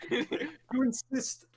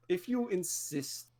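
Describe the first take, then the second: First: "You insist" stretched slow and high; slow drawn-out "You insist". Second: Said in the usual way. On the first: Shown as a demonstration. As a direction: draw out "You insist" slowly.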